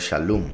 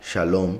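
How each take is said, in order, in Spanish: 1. La segunda sílaba tiene una vocal U. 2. La segunda sílaba tiene una vocal O. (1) "se dice que la pronunciación sería shalom, como una U" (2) "que es como la mayoría de la gente lo pronuncia hoy en día"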